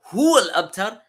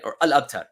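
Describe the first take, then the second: First: "Huwa" lifted high and loud at the start; "Huwa" said higher and louder, rising to the end; stress on Huwa. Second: Said in the usual way. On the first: Shown as a demonstration. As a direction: punch "Huwa" up high, then let "al-abtar" follow. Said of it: "it's adding more emphasis". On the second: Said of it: "But he says".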